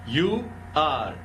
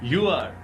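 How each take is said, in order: First: Both words are said fully and separately. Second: The words are merged into one short syllable.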